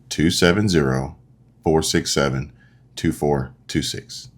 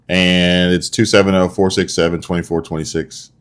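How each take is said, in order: First: The numbers are read more slowly. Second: The numbers are read at normal speed.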